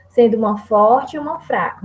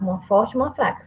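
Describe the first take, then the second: First: Said in the usual way. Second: Fast, quieter rattled-off repeat; quick classroom recap. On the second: Shown as a demonstration. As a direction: rush through the rule again. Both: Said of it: "eram dez sílabas ao todo num verso".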